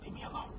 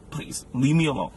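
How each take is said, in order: First: A faint whispered sulk; soft hurt whisper to the girlfriend. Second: Said in the usual way. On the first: Acted. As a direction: breathe it with no voice. Sulking breakup line.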